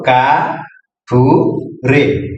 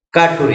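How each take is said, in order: First: কা ঠু রে said as three separate beats with pauses; syllable-by-syllable teacher demo; split into syllables. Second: Said in the usual way. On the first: Shown as a demonstration. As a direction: break কাঠুরে into কা, ঠু, রে for a child. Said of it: "তাহলে কি হলো?". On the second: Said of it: "একসাথে কি হলো?".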